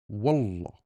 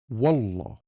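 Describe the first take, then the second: First: The word sounds strong, firm and direct. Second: The word sounds strong, firm and direct.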